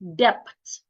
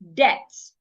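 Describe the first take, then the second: First: The B sound is pronounced. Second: The B sound is silent. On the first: The speaker calls it wrong. "An average person will pronounce the B in the word" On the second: The speaker calls it right. "most times the letter B becomes silent"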